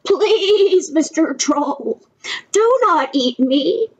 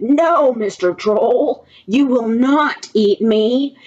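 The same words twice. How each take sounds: First: High, drawn-out pleading of a little goat; a little frightened. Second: Slow, firm refusal by a big goat; unafraid. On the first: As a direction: plead slowly in a high, mildly scared voice. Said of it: "was a little frightened". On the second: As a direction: stand up to the troll, drawing out the words. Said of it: "was not afraid". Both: A narrator's reading.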